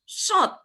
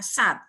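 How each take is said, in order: First: It has a heavy sound and rounded 'o' vowel. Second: It has a thin 's' and open 'a' vowel. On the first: The speaker calls it right. "harusnya shot" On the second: The speaker calls it wrong.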